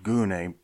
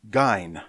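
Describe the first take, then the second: First: The word is said with a Greek pronunciation. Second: The word is said with an English pronunciation. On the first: "It's just how you pronounce that in Greek" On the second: "We would say gyne"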